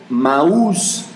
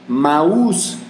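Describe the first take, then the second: No difference in how they are said.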